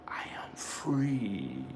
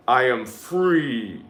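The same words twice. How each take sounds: First: Slow whisper, much softer; whispered affirmation. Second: Said in the usual way. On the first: Shown as a demonstration. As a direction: breathe the words out as a hushed affirmation. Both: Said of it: "Say it with me again, holy ones, three times".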